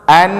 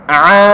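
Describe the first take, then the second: First: "an" with a clean glottal start; plain hamza a. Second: "a" pressed in the throat; Arabic ain. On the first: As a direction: say "an" open, free of ain. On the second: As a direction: tighten the pharynx for "a" as ain. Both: Shown as a demonstration. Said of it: "Bedakan a dengan in".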